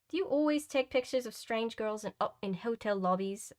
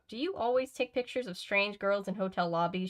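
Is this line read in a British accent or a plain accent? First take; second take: British; plain. First: It is read in a put-on upper-class British accent. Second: It is read in the reader's ordinary accent.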